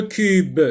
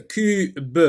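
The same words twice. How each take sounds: First: Said in the usual way. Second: "cube" cut in two, the final b sounded separately; split into syllables. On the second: Shown as a demonstration. Teacher sectioning the word for learners, "cube" in two beats. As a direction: pause inside "cube" before a separate "be". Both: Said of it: "on sectionne le mot en syllabes".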